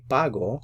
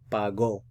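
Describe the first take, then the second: First: The stress is on the first syllable. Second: The stress is on the last syllable. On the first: The speaker pays now. "You put the stress over here" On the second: Someone paid in the past. "put the stress on the last syllable"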